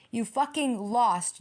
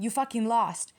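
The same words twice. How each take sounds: First: You fucking lost said slowly, every word hit; slow emphatic You fucking lost. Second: Said in the usual way. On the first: Shown as a demonstration. Reader telling the ex off, slow heavy stress. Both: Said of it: "when I say you lost".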